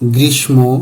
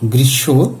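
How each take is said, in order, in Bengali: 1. m ধ্বনিটি স্পষ্টভাবে উচ্চারিত হয়। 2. নীরব m, এর আগে দ্বিত্ব অনুনাসিক ব্যঞ্জন। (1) "এভাবে উচ্চারণ করে থাকি, কিন্তু উচ্চারণগুলো সঠিক নয়" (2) "সঠিক উচ্চারণ হবে"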